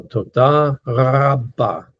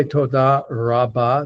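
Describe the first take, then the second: First: Toda rabba slow, with a rolled back-of-throat R opening rabba; slow model toda rabba with guttural R; Hebrew R. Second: Toda rabba with an American R; American accent. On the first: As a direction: draw out toda rabba, trilling the R on the uvula. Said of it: "the Hebrew R is". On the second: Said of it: "there's an American trying to say". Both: Shown as a demonstration.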